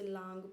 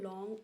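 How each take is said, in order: First: The vowel is a long open 'aa' sound. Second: The vowel is a rounded open 'aw' sound. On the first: The speaker calls it wrong. "बहुत सारे लोग जैसे लांग पढ़ेंगे या लोंग पढ़ेंगे, that is wrong" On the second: The speaker calls it right. "ध्यान से सुनिए"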